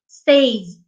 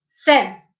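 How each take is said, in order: First: The vowel sounds like the vowel in 'say'. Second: The vowel sounds like the vowel in 'sez'. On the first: The speaker calls it wrong. "people have the habit of saying says" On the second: The speaker calls it right. "as in S E Z"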